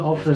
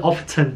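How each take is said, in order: First: It is said the way the speakers themselves say it. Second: It is said with a British English accent.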